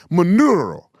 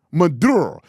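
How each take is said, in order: First: Loud Spanish trilled R on "Maduro"; mock Spanish accent. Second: "Maduro" with a hard D; English pronunciation. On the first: Host contrasting two versions, mock Spanish accent. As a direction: overdo the rolled R in a Spanish accent. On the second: Host contrasting two versions, English "Maduro". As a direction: say "Maduro" the English way, D sounded clearly. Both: Shown as a demonstration. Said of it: "It's not Maduro".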